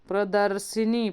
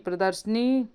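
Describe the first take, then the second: The two takes are said the same way.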